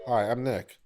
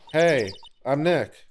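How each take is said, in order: First: It is said quietly. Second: It is said loudly.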